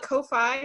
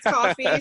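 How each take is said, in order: First: The name does not sound like the word coffee. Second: The name sounds just like the word coffee. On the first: The speaker calls it wrong. "keep wanting to call it Ko-fi" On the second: The speaker calls it right. "I've been told it's coffee"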